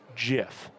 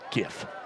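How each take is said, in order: First: The word begins with a soft J sound. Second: The word begins with a hard G sound. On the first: This is how the word's creator says it. "the guy who invented it said it's pronounced GIF" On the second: This is how most people would naturally say it. "most people would look at GIF and pronounce it GIF"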